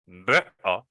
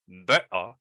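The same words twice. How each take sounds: First: It is said with a British accent. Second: The same.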